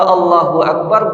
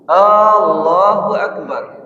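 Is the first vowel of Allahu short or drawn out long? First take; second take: short; long. First: The first vowel is said short. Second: The first vowel is drawn out long. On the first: The speaker calls it right. "bermakna Allah itu maha besar" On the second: The speaker calls it wrong. "ketika dipanjangkan A-nya itu"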